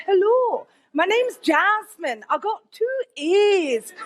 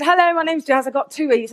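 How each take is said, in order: First: Slow, higher, drawn-out mock-Scottish accent; put-on Scottish accent. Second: Said in the usual way. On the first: Applicant phoning the next college to bluff, fake Scottish accent. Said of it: "in a Scottish accent". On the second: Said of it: "I said".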